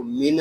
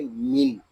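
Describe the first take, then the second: First: मिन with an extra short vowel after the न, "mi-na"; wrong reading. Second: मिन closed on a still न, no vowel after it; correct sukoon. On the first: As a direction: let the न of मिन bounce into a small "na". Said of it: "इसको मिन ऐसे नहीं पढ़ेंगे". (मिन के नून को हिलाकर "मि-न" पढ़ना) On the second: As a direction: rest on the न of मिन without bouncing it. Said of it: "इसको पढ़ेंगे मिन". (मिन के नून को सुकून के साथ पढ़ना) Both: Shown as a demonstration.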